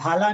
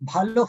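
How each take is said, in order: First: The word ends with an open 'a' vowel. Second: The word ends with a rounded 'o' vowel. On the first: The speaker calls it wrong. "Just భాలా అని pronounce చేయకూడదు" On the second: The speaker calls it right. "బంగ్లాలో కొంచెం ఓగా pronounce చేస్తారన్నమాట"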